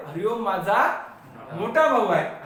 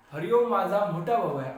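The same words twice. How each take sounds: First: Pause, then मोठा punched louder; stress on मोठा. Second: Said in the usual way. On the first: Shown as a demonstration. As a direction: rise on माझा, pause, hit मोठा hard. Repeats example, highlighting the adjective.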